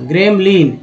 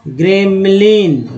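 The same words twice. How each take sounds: First: Said in the usual way. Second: gremlin said slowly, each syllable gre-m-lin clear; slow model. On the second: Shown as a demonstration. Teacher modelling word for students, slow. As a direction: stretch gremlin out slowly once.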